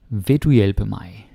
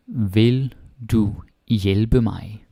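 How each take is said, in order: First: Said in the usual way. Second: Vil du hjælpe mig stretched out very slowly; very slow question model. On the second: Shown as a demonstration. Teacher slowly modelling a question for the class. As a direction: drag out the question for learners.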